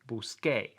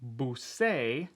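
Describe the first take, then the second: First: The consonant before the final vowel sounds like K. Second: The consonant before the final vowel sounds like S. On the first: The speaker calls it right. "the K sound that you would be expecting" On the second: The speaker calls it wrong. "one of them be a soft S sound"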